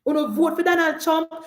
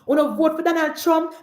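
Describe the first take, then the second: No difference in how they are said.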